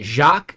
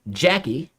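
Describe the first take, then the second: First: The name is said as one syllable. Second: The name is said as two syllables. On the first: "is it Jacques and then the I E is extra?" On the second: "which is probably a bad pronunciation"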